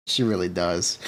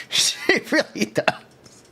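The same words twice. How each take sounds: First: Said in the usual way. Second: Slow breathy laugh over words. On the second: Real, not acted. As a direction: laugh it out slowly. Laughing agreement about VTuber look.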